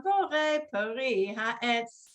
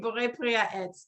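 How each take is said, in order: First: Slow blessing. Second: Said in the usual way. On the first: Shown as a demonstration. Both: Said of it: "let's say".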